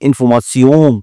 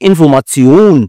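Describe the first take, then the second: First: It is said with a nasal French pronunciation. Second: It is said with a German pronunciation. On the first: "ফরাসি ভাষায় বলে ইনফরমাশন, নাকে নাকে বলে ওরা" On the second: "যেমন ভাষায় উচ্চারণ করো"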